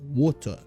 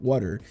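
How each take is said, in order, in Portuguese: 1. É dita com um sotaque britânico mais fechado. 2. O r é prolongado e o t é suavizado. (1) "o britânico é um pouco mais fechado" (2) "meio que puxando esse er, e o meu T é um pouquinho é, enrolado"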